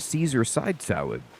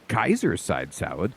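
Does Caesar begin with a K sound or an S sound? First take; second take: S sound; K sound. First: Caesar begins with a soft S sound. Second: Caesar begins with a hard K sound. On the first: "the English pronunciation" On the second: "old Latin has the hard C"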